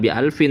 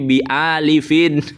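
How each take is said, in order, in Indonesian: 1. Kata terakhir tidak ada vokal di antara l dan f. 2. Kata terakhir ada vokal di antara l dan f. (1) "bukan bi alfin" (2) "yang benar bacanya ... bi alifin"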